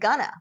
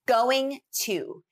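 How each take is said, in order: First: The words are reduced to 'gonna'. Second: The words are said in full as 'going to'.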